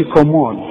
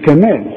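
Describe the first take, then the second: First: كمال with a heavy, full ك; the wrong كمال, ك made heavy. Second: كمال with a thin, light ك. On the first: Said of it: "ما نقولش كمال". (كمال بكاف مفخمة) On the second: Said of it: "نقول كمال". (كمال بكاف مرققة) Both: Shown as a demonstration.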